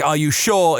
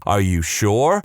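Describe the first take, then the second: First: "Are you sure?" in a regional accent, sounding like a swear. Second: Said in the usual way. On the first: Shown as a demonstration. Host showing how his region says it, regional accent. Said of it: "in my regional accent". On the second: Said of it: "And they say".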